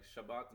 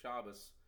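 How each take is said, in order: First: The word ends with a t sound. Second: The word ends with an s sound.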